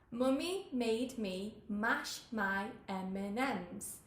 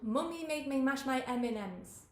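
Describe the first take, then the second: First: The phrase is said more slowly. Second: The phrase is said at a normal speed.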